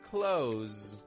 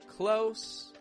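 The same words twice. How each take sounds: First: The word ends with a buzzing z sound. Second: The word ends with a hissing s sound.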